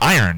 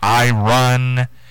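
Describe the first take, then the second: First: It is said plainly, without an 'I run' sound. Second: It sounds like the two words 'I run'. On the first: The speaker calls it right. "It's just iron" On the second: The speaker calls it wrong. "they say I run"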